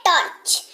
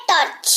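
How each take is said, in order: First: टॉर्च repeated, ch at the end; pronunciation demo. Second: टॉर्च ending on a clear ch; pronunciation demo. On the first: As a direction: finish टॉर्च on a crisp ch. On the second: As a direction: land the ch at the end of टॉर्च. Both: Shown as a demonstration. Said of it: "च सुनाई दे रहा है".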